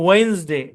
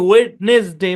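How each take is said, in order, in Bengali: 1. d এবং মাঝের স্বরধ্বনিটি নীরব। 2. d এবং মাঝের স্বরধ্বনিটি উচ্চারিত হয়। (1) "এটার উচ্চারণ হচ্ছে ওয়েন্সডে। এখানে ডিটা তো সাইলেন্ট" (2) "আমরা বলি ওয়েডনেসডে, এভাবে বলি। না"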